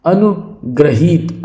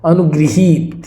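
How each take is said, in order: First: अनुग्रहित said slowly with "gra-hit"; wrong "grah". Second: अनुगृहीत said as "anu-gri-heet"; correct "gri". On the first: Teacher shows the mistake, अनुग्रहित with "gra". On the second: Teacher corrects the word, अनुगृहीत with "gri". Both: Shown as a demonstration. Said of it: "अनुग्रहित नहीं होगा".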